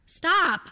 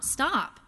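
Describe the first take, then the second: First: High, sharp command; sharp stop. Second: Said in the usual way. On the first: Acted. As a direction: snap it out to halt her. Telling mom to stop pretending.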